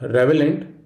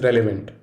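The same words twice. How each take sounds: First: "relevant" as REV-uh-lent; "relevant" with swapped sounds; wrong relevant. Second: "relevant" as REL-uh-vent; "relevant" with l before v; right relevant. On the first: Teacher showing students the wrong way, "relevant" as REV-uh-lent. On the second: Teacher showing students the right way, "relevant" as REL-uh-vent. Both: Shown as a demonstration. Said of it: "invite metathesis".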